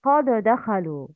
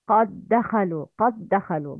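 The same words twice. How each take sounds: First: قد دخلوا with the dal left separate; wrong pronunciation. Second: قد دخلوا with dal merged, doubled d; correct pronunciation. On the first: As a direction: show the error, dal not merged. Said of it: "But the wrong is". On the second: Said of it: "Please repeat after me the correct pronunciation". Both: Shown as a demonstration.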